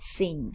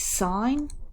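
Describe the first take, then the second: First: The word sounds like 'sin', with a short vowel. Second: The word sounds like 'sign', with a long vowel. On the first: The speaker calls it wrong. "not sin" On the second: The speaker calls it right. "It's sine"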